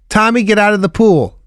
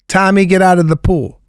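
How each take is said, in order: First: It is said in a flat, unchanging tone. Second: The same.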